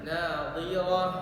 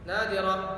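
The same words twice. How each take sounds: First: The final h is fully breathed out. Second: The final h is cut short. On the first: The speaker calls it right. "seperti habis nafasnya ya" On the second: The speaker calls it wrong. "belum sempurna itu"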